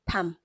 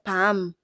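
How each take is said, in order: First: The final M is cut off short. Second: The final M is held and drawn out. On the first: The speaker calls it right. "the sound is not drawn out" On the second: The speaker calls it wrong. "not pam"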